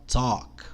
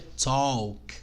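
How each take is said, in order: First: No L sound is heard before the final k. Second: An L sound is heard before the final k. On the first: The speaker calls it right. "esse L então não lê, você vai ler só talk" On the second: The speaker calls it wrong. "a pronúncia errada é talk"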